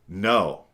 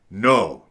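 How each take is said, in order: First: The no is said in a firmer tone. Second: The no is said very aggressively. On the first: The boundary has already been crossed once. "The tone changes" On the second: The boundary keeps being crossed. "you're very aggressive"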